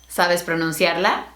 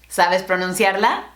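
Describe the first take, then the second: Both takes have the same delivery.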